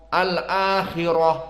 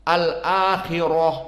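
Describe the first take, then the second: The two takes are said the same way.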